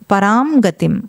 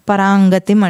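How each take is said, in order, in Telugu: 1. 'gatim' ముందు అనునాసికాన్ని పూర్తిగా పలుకుతారు. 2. అనునాసికం 'gatim'లో కలిసిపోతుంది.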